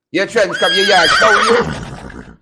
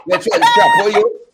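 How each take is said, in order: First: Rickford Burke impression. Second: Mock shrieked taunt. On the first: Host mimics Rickford Burke scolding Ortega, in a light mock voice. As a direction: jeer it the way Rickford Burke would, only a hint of him. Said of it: "In my Rickford Burke voice". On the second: Host mocking a politician's jab, in a shrieked mock taunt. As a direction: squeal the insult in mockery.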